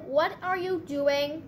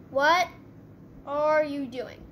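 First: Said in the usual way. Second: "What" set apart, the rest falling; emphatic questioning. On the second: Real, not acted. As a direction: hit "What", stop, then drop through "are you doing". Repeats it with a pause.

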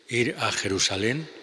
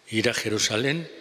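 No difference in how they are said.

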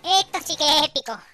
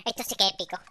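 First: Grito agudo y épico; repítelo a lo grande, alto y fuerte; entusiasmo exagerado. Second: Said in the usual way. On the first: Acted. Repite la frase con énfasis exagerado. (emoción teatral a gritos)

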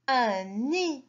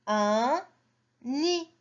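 First: Said in the usual way. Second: Un, pause, then nid pitched up; sounded out. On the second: Shown as a demonstration. Teacher models reading for children, words spaced apart. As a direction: separate un from nid with a clear gap.

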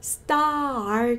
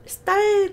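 First: STAR with a long "ah", r only at the end; long open vowel in STAR before a late r; late-rolled r. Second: STAR with the r swallowing the vowel, pitched high; wrong-way STAR, high and r-heavy from the start; r curled too early. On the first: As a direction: stretch STAR slowly and curl the r last. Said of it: "R은 정말 나중에 굴리세요". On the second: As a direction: curl the r straight away in STAR. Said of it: "star 아닌 거죠". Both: Shown as a demonstration.

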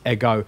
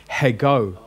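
First: Ego starting straight on the vowel; eh-GO, no H before ego; no rough breathing. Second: Hego with an audible H in front; heh-GO, breathe the H of hego; rough breathing. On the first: Teacher showing the left-facing mark, ego without any H. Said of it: "don't do a rough breathing on it". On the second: Teacher showing the other breathing mark, hego with H. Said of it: "it would mean there's an H". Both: Shown as a demonstration.

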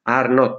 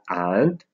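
First: Said in the usual way. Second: "aren't" as a single syllable, "ant"; forma contratta. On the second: Shown as a demonstration. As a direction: merge are and not into "aren't". ("aren't" contratto, detto "ant") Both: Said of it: "Are not diventa aren't".

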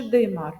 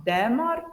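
First: «димар» with a full и in the first syllable; clear и. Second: «демар» with a full е in the first syllable; clear е. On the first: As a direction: overpronounce the first vowel of «димар» as и. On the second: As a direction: overpronounce the first vowel of «демар» as е. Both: Shown as a demonstration. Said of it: "ми сумніваємось".

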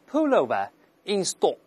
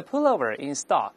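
First: "pullover in stock" with no final r, rounded "stock"; careful British model phrase; British accent. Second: "pullover in stock" with final r and open "stahk"; slow American model phrase; American accent. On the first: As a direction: say it British: pull-oh-vuh in stawk. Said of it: "英式发音嘛". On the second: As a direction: say it American: pull-oh-ver in stahk. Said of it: "美国人的". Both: Shown as a demonstration.

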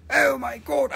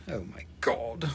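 First: High-pitched cry of amazement; voiced, high-pitched astonishment; high exclamation. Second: Whispered, low astonishment; breathless whispered exclamation; hushed disbelief. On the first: Same exclamation repeated aloud. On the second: Pretend. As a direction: whisper it in mock awe. Mock awe at the rock.

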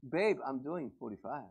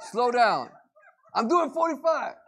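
First: Softer, lower sweet reply; nicely. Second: Higher and louder irritated retort; mock snapping husband. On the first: Acted. Husband answers wife nicely, soft and sweet. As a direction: say it gently to your wife. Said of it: "you tell it nicely". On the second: Husband snaps at wife about his speed, mock irritated. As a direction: snap back at the wife in traffic.

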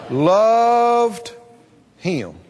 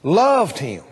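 First: Loved drawn out, falling; stress on loved. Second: Loved said low and falling; Loved pressed down, him dropped; stress on loved. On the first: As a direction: lean on the word Loved. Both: Shown as a demonstration.

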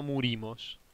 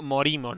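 First: "murimos" said with a u, mu-ri-mos, quoting the friend's mistake; mocking the wrong word. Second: "morimos" said with a clear o in the first syllable, mo-ri-mos; correcting a friend with "morimos", mo not mu; correct pronunciation. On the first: Quoting his friend's error, says "murimos" with a u. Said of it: "Es mo-, morimos". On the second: Correcting his gaming friend, says "morimos" with a clear o. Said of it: "no murimos". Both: Shown as a demonstration.

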